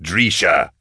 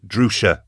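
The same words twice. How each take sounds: First: "Drisha" said DREE-sha; mispronounced name. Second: Said in the usual way. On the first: A narrator's reading. Falcon getting the guest's name wrong, "Drisha" as DREE-sha. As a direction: say "Drisha" with an ee in the first syllable.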